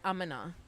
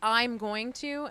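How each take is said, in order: First: "Going to" is run together into "gonna". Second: Each word of "going to" is said in full. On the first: "and I say I'm gonna" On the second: "Mine is I'm going to"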